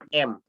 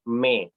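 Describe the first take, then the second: First: The vowel comes before the consonant. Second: The vowel comes after the consonant. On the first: The speaker calls it wrong. "Bukan M" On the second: The speaker calls it right. "tapi me"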